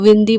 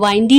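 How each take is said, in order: First: The first vowel is a short 'i' sound. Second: The first vowel is a long 'eye' sound. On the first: The speaker calls it right. "विंडी बोलेंगे" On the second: The speaker calls it wrong. "इसे वाइंडी नहीं pronounce करेंगे"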